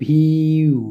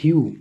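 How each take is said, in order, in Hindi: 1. अक्षर धीरे, टुकड़ों में बाँटकर बोला गया है। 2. अक्षर सामान्य गति से, एक साथ बोला गया है।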